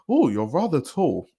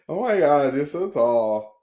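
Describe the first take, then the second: First: It is said in a British accent. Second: It is said in a Californian accent.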